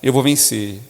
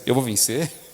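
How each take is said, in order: First: It sounds like a confident declaration. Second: It sounds like a doubtful question.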